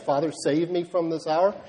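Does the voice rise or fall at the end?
rise. It is said as a question, rising.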